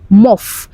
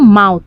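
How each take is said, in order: First: The word ends with an f sound. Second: The word ends with a th sound. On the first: "Mouth is what they are calling muff" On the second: "it's not mouth oh"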